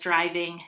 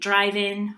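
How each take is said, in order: First: The word ends in an ng sound. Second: The word ends in a plain n sound. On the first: "instead of pronouncing it as driving" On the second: "they typically drop the G"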